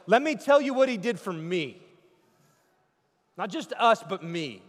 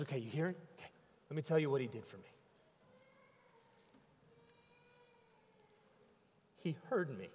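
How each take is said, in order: First: Loud, high declaration; personal testimony. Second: Much softer, hushed testimony; broken man's murmur. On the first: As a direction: proclaim it as your own story. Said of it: "He's like". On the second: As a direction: barely voice it like a beaten man. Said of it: "And he says". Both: Acted.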